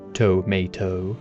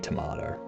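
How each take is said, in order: First: The stress falls off the middle syllable. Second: The stress falls on the middle syllable. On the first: The speaker calls it wrong. "I don't know why I said it like that" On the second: The speaker calls it right. "Emphasis on the middle"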